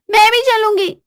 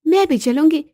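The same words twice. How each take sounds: First: High-pitched, louder demand; high, pushy insistence; insistent wife. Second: Wife's voice, slightly raised; mildly insistent, higher than narration. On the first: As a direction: call after him, demanding to come. Wife follows, repeats demand. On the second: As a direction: announce you are tagging along. Wife first says she'll come. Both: Acted.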